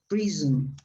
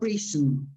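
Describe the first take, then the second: First: The middle consonant is a buzzing Z sound. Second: The middle consonant is a hissing S sound. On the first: The speaker calls it right. "it's pronounced like a Z" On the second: The speaker calls it wrong. "not prison"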